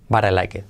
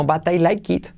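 First: "But I like it" grave, acabado en "ket"; "it" con e. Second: "but I like it" acabado en "kit"; "it" con i. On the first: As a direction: di "But I like it" con e abierta al final. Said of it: "Todo es". ("But I like it" terminado en e) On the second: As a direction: di "but I like it" con i cerrada al final. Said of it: "no but I like it". ("but I like it" con i larga) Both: Shown as a demonstration.

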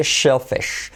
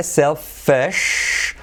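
First: "shellfish" opens and ends on sh. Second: "Selfish" opens on a clean s, final sh held. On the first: Teacher contrasting SH with S, shellfish with clear sh. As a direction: start "shellfish" with a hushed sh. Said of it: "otra vez S H". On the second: Teacher contrasting S with SH, selfish with clear s. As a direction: draw out "Selfish", starting with hissed s. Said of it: "Sell con el S". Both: Shown as a demonstration.

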